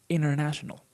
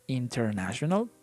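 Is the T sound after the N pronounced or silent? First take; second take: silent; pronounced. First: The T is dropped and the N is lengthened. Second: The T after the N is clearly pronounced. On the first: "the more natural way is international" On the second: "that is okay, perfectly uh, acceptable"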